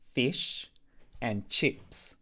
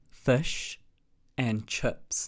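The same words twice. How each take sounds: First: It is said with an Australian accent. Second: It is said with a New Zealand accent. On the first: "Whereas in Australia, they say fish and chips" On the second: "So in New Zealand, we say fish and chips"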